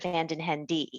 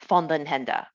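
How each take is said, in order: First: The name is said with a strong American accent. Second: The name is said with Dutch pronunciation. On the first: This makes the name even easier for Americans. "to try to Americanize and make it even easier" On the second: This is the original family pronunciation. "he pronounces it the proper way"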